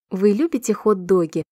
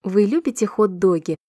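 No difference in how they are said.

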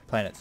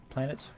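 First: "Planets." stated firmly with a falling tune; falling statement. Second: "Planets?" asked with a rising question tune. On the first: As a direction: answer "Planets." as a settled fact, falling at the end. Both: Shown as a demonstration. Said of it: "asks then answers itself".

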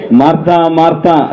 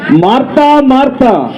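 First: Calling at an everyday pitch; not loud, close by. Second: High-pitched calling out, as if reprimanding; scolding call. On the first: Shown as a demonstration. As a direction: call the name calmly, as if standing near. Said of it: "దగ్గరుండి అంత గట్టిగా అనరు ఆయన". (దగ్గరగా ఉండి మామూలు స్వరంతో పిలుపు) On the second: Acted. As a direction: call the name sharply in a high, raised pitch. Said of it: "గట్టిగా పిలిచారా లేదా?". (గద్దిస్తూ హెచ్చు స్వరంతో పిలుపు)

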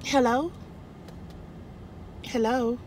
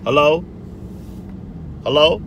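First: Soft, higher-pitched hello; quiet, lifted questioning hello; soft phone hello. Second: [name]. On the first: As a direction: answer the phone softly and tentatively. Answering phone in reenacted call. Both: Retold or imitated.

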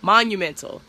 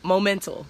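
First: "monumental" said fully, a little louder; "monumental" with all its syllables, firmly; corrected word. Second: "momental" said as a slip, stress on MO; "momental" said quickly, then corrected; misspoken word. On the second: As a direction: trip over it as "momental". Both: Shown as a demonstration.

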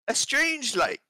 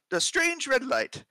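First: High, slow British narration; British accent. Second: Put-on slipping into an Australian accent. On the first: Acted. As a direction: read it like an English prince. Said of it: "I'm gonna do this in his voice". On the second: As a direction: read it like an Aussie sailor. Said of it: "I just went into Australian".

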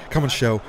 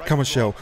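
Both takes have the same delivery.

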